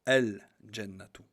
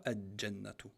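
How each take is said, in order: First: Loud, slow "Al-Jannatu" with the L held clearly; lam pronounced. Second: "Al-Jannatu" with L swallowed into a doubled J, like "aj-jannatu"; lam wrongly dropped. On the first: Teacher giving the correct form, L sounded loudly and slowly. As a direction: hold the L, then a single J, in "Al-Jannatu". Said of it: "on dit". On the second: Teacher showing what not to say, L dropped. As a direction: run straight into a double J in "Al-Jannatu", no L. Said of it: "On dit pas". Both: Shown as a demonstration.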